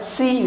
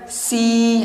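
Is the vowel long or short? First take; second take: short; long. First: The vowel is short. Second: The vowel is held long. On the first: "hanya berharokat kasrah tanpa mat, maka bunyinya hanya sekedarnya" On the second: "maka menjadi panjang dua harokat"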